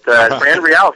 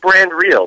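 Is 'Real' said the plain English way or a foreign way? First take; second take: foreign; English. First: Real has a foreign, exotic sound. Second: Real sounds like the plain English word. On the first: This sounds more exotic than the intended name. "sounds a lot more exotic" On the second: This is the title's intended name. "It's Brand Real"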